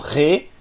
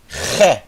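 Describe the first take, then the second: First: The vowel is closed and soft. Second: The vowel is open and strong. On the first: The speaker calls it wrong. "Não re" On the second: The speaker calls it right. "Agudo. Forte"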